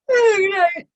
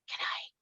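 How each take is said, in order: First: It is said in a normal casual voice. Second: It is said in a quiet whisper.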